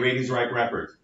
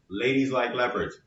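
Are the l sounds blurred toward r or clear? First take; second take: blurred; clear. First: The l sounds blur toward an r sound. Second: The l sounds are clear English l sounds. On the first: A learner without the r-l boundary says it. The speaker calls it wrong. "they'll say ladies like leopards" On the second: A native English speaker says it. The speaker calls it right. "no, listen, ladies like leopards"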